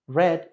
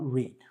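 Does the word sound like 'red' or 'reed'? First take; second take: red; reed. First: The vowel is short, as in red. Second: The vowel is long, as in reed. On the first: The action is in the past. The speaker calls it right. "está en pasado. Y así sabes que esto es read" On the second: The action is in the present. The speaker calls it wrong. "y no read"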